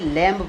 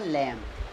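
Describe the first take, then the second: First: A b sound is pronounced at the end. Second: The word ends in m with no b. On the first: The speaker calls it wrong. "कई बच्चे इसे लैम्ब पढ़ते पढ़ देते हैं" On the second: The speaker calls it right. "सही pronunciation इसका होगा लैम्ब"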